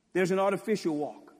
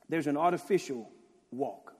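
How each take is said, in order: First: Artificial pushed out louder; loud emphatic restatement. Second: Said in the usual way. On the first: Shown as a demonstration. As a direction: hit the word artificial hard on the repeat.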